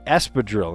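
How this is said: The word has an English pronunciation. This is how English speakers say it. "it's we say espadrille"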